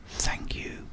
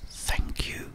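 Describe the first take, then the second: No difference in how they are said.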